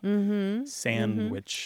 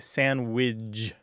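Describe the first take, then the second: First: It is said with no d sound after the n. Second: It is said ending in widge instead of witch. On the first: "sandwich without the D" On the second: "widge at the end instead of witch at the end"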